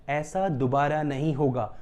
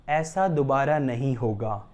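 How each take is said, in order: Both takes have the same delivery.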